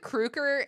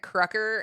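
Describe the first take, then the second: First: The middle consonant is a voiced G sound. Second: The middle consonant is a voiceless K sound. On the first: "you said Kruger" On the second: "I've been pronouncing it Krucker"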